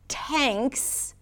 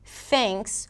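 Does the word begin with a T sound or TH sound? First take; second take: T sound; TH sound. First: The word begins with a T sound. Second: The word begins with a TH sound. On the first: The speaker calls it wrong. "tanks with a T" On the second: The speaker calls it right. "thanks with a TH"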